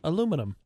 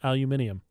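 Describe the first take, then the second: First: It is said the American way. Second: It is said the British way.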